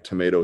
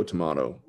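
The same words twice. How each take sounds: First: Tomato said "tuh-MAY-toe"; American tomato. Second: Tomato said "tuh-MAH-toe"; British-style tomato. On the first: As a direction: say tomato with an "ay" in the middle. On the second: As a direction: say tomato with an "ah" in the middle. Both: Shown as a demonstration. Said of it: "Tomato, tomato".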